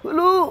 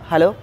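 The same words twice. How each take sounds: First: It is said in a put-on elderly voice. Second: It is said in an ordinary everyday voice. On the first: "ముసలితనంలో" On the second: "ఇదొక general voice"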